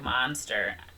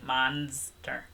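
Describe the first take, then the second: First: The middle consonant sounds like an s. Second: The middle consonant sounds like a z. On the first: "you didn't say it like you usually" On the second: "with a Z"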